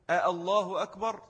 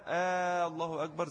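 First: Short آه, fresh glottal start on الله; همزتان منفصلتان. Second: آه merged into الله as one long vowel; one long held آه flowing into الله أكبر; همزتان مدغمتان بالمد. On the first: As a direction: keep آه and الله as two separate hamzas. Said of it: "هي أصلها إيه؟". («آه الله» بهمزتين غير مدغمتين) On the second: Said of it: "الهمزتين مع بعض تلاقوا". («آه» ممدودة من التقاء الهمزتين) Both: Shown as a demonstration.

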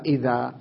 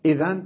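First: إذا ending in a long vowel; pausal alif. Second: Said in the usual way. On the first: Shown as a demonstration. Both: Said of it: "تقف عليها".

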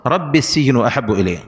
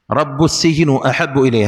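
First: "رب" said rabbi; usual kasra reading. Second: "رب" said rabbu; variant with damma. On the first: Teacher giving the well-known reading, "رب" said rabbi. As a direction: join "رب" to "السجن" with i. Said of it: "هي قراءتنا المشهورة". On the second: Teacher showing the variant reading, "رب" said rabbu. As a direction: join "رب" to "السجن" with u. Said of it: "هكذا جاءت قراءة". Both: Shown as a demonstration.

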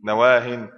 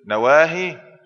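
First: نواهن said loudly as nawaahin; ya dropped, tanween. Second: نواهي loud, ending in a long -ii; final ya kept. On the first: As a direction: end نواهن on a firm "-in". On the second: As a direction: hold the ya at the end of نواهي. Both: Shown as a demonstration. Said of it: "إذا كان نكرة نحذف الياء".

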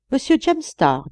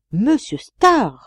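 First: Said in the usual way. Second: Drawn-out, higher and louder exclamation; surprised echo. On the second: A narrator's reading. Friend suddenly learning who stands in the shadow, astonished. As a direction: echo the name slowly, astonished, falling at the end.

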